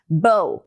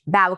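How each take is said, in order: First: The vowel rhymes with the word show. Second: The vowel rhymes with the word now. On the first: It means a ribbon knot. "com essa pronúncia que rima com show" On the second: It means the front of a ship or to bend. "Bow que rima com now ou how"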